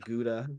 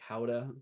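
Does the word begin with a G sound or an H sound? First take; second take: G sound; H sound. First: The word begins with a hard G sound. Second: The word begins with an H sound. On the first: This is how the speaker usually says it. "I've called it Gouda" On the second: This is how other people say it. "some people say it like Howda"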